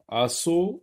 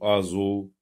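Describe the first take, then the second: First: The middle consonant is a hissing s sound. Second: The middle consonant is a buzzing z sound. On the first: The speaker calls it wrong. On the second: The speaker calls it right.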